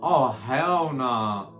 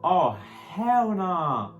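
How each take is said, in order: First: Drawn-out hell nah. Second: "Oh, hell nah" stretched out very slowly, higher and louder; outraged hell nah. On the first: Reacting to the Trump quote. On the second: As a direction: drag out "hell nah" in total disbelief. Repeats the reaction, bigger. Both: Real, not acted.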